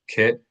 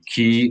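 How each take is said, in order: First: The vowel is a short 'i' sound. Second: The vowel is a long 'ee' sound. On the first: The speaker calls it wrong. "and not" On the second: The speaker calls it right. "the I's are always E"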